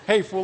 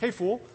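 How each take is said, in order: First: It sounds harsh and insulting. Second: It sounds light and playful. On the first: The listener is called stupid. "like you're dumb or something" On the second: It is a friendly joke. "but not like that way"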